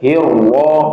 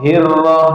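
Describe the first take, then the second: First: The r sound is heavy and thick. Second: The r sound is light and thin. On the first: The speaker calls it wrong. "itu salah" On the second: The speaker calls it right. "jadi tipis"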